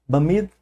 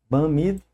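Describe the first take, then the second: No difference in how they are said.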